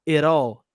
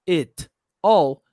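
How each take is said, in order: First: The two words are linked together. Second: The two words are said separately. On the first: "eu posso juntar e falar it all" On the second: "Ao invés de falar it all"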